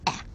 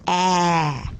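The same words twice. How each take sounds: First: The vowel is short and clipped. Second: The vowel is long and drawn out. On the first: The speaker calls it wrong. "we want to encourage the children not to say ah" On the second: The speaker calls it right. "We want them to say ah"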